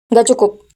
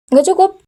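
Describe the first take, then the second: First: Said in the usual way. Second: Nggak cukup asked with a higher rise on cukup; incredulous question. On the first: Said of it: "echoes the nephew's answer". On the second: Acted. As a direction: throw Nggak cukup back at him in disbelief. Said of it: "Karena apa?".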